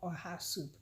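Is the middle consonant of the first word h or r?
h. The middle sound is h, her own dialect.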